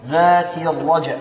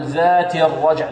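First: "ذات" ends in a pure "ti"; clear kasra. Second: "ذات" with a muddied vowel on its final t; wrong kasra. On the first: Teacher setting the right form against the error, careful demo. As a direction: hold the i on the t of "ذات" before "الرجع". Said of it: "نحافظ على كسرة التاء". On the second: Teacher showing what we don't say, faulty vowel demo. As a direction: blur the "ti" ending of "ذات". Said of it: "لا نقول". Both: Shown as a demonstration.

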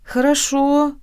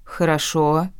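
First: High, smiling agreement; warm, smiling. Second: Calm, unruffled acceptance; calm agreement. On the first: Redhead accepting the refusal, warmly smiling. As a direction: agree lightly with a smile in the voice. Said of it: "тепло улыбнулся Рыжик". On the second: Ant accepting the landlord's price, calmly. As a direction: agree evenly, without any fuss. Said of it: "также спокойно согласился Ант". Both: A narrator's reading.

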